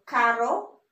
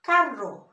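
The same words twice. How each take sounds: First: "caro" with a single tapped R; single-R pronunciation. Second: "carro" with a rolled double R; double-R pronunciation. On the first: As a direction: say "caro" slowly, with one light R flick. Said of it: "this is expensive and this is car". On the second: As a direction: trill the R in "carro". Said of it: "carro is car". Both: Shown as a demonstration.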